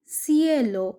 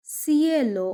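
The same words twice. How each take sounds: The two takes are said the same way.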